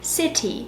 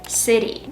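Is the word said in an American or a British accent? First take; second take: British; American. First: It is said in a British accent. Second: It is said in an American accent. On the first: "in the British accent, I have to say" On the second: "I'm used to saying this sound in an American way"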